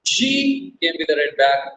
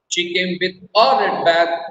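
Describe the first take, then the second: First: The stress is on "she". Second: The stress is on "a".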